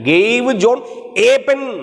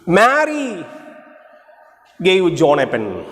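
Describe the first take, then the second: First: The stress is on pen. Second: The stress is on Mary.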